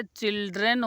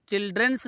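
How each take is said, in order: First: चिल्ड्रन said with no final s, the right form; correct plural children. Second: चिल्ड्रंस said with an extra s at the end, the wrong form; wrong plural childrens. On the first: Teacher giving the class the right form चिल्ड्रन. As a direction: say चिल्ड्रन cleanly, ending on n. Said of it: "चिल्ड्रन होता है". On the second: Teacher showing the class the wrong form चिल्ड्रंस. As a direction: say चिल्ड्रंस with a final s, as a mistake. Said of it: "चिल्ड्रंस नहीं होता है". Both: Shown as a demonstration.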